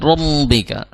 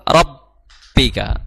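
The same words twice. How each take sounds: First: The doubled b leaks air through the nose. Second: The doubled b is clear, without nasal leakage. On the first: The speaker calls it wrong. "jangan rabbika" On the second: The speaker calls it right. "jangan sampai bocor, tetap rabbika"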